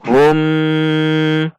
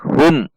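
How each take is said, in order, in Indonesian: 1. Huruf m diucapkan dengan dengung sengau. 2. Huruf m dipotong secara tiba-tiba. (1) "tidak boleh dibaca dengung" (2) "atau dihentak"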